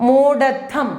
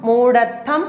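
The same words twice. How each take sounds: Both takes have the same delivery.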